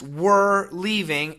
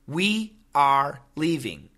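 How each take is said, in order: First: We are is said fast, sounding like were. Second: We are is said as two full, separate words.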